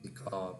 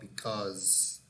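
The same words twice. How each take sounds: First: The word ends without a clear z sound. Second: The word ends with a clear z sound. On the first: The speaker calls it wrong. "not because" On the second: The speaker calls it right. "remember the final sound is z"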